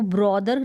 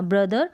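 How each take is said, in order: First: ब्रदर said with an o, bro-der; teacher demonstrates the wrong ब्रदर, bro-der; wrong brother. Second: Teacher models ब्रदर the right way, bruh-der; correct brother. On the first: Teacher shows students the mistake, ब्रदर with o. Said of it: "इसको ब्रदर ना पढ़ें आप". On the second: Teacher modeling correct English, ब्रदर with short a. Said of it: "ब्रदर ना पढ़ें आप, ब्रदर पढ़ें". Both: Shown as a demonstration.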